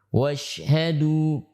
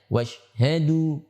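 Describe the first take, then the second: First: The sh sound has long spreading breath. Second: The sh sound is short with little breath. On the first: The speaker calls it right. "Seperti itu" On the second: The speaker calls it wrong. "tapi hanya dibaca washhadu"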